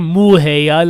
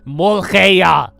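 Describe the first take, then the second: First: The first syllable sounds like a cow's moo. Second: The first syllable does not sound like moo. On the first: The speaker calls it wrong. "Not a muheya like a cow. A moo" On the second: The speaker calls it right. "That's how you say it"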